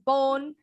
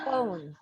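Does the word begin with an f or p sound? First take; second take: p; f. First: The word begins with a p sound. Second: The word begins with an f sound. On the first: The speaker calls it wrong. "bukan phone" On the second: The speaker calls it right. "tapi phone"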